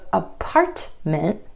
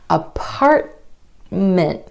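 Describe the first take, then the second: First: The T is released with a burst of air. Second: The T is held without any release. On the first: The speaker calls it wrong. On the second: The speaker calls it right.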